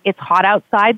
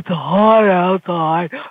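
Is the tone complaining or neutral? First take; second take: neutral; complaining. First: It is said in a flat, matter-of-fact tone. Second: It is said in a whiny, complaining tone. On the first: It simply states a fact. The speaker calls it right. "That's a fact" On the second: It expresses dissatisfaction about the situation. The speaker calls it wrong. "that's a complaint"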